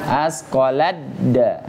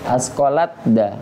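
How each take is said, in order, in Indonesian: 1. T lebur menjadi bunyi d ganda. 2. T diucapkan terpisah sebelum d. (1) "Seharusnya bacanya asqaladda" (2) "seringnya mungkin kita bacanya asqalatda"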